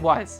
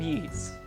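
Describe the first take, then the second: First: The name sounds like the English word 'wise'. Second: The name does not sound like 'wise'. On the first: The speaker calls it wrong. "I always want to say Wise. I know it's not Wise" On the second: The speaker calls it right. "I think that's how you pronounce it"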